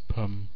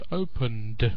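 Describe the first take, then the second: First: The word is squeezed into a short reduced syllable. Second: The word is said in full with every syllable. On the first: "Why pum?" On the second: "Why not opened?"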